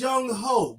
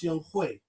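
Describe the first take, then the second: First: The second syllable sounds like 'ho'. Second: The second syllable sounds like 'hwee'. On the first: The speaker calls it wrong. "I know it says Young Ho" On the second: The speaker calls it right. "it's actually pronounced Young Hui"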